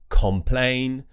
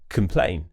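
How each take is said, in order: First: The first syllable has a full, strong vowel. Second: The first syllable has a relaxed schwa vowel. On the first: The speaker calls it wrong. "they pronounce them as com or con" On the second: The speaker calls it right. "we'll use the schwa sound on that letter O"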